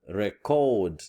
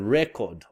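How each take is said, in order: First: The stress is on the second syllable. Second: The stress is on the first syllable. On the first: It is a verb meaning to capture something. "How about I want to record?" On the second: It is a noun meaning a written account. "I have a record of what happened"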